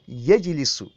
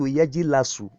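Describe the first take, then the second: First: The vowel after the L is i. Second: The vowel after the L is a. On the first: The speaker calls it right. "The lamun is the ainul kalima. What is it carrying in mudaro? Kasra" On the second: The speaker calls it wrong. "it is wrong for you to say to turn yajlisu to yajilasu"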